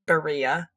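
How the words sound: It is said with an American English accent. "I am a gringa, so I pronounce it birria"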